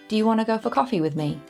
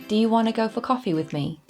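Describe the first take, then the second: First: It is said casually, with reduced sounds. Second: It is said casually, with reduced sounds.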